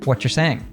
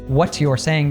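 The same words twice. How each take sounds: First: The t and y merge into ch. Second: The t and y stay separate sounds.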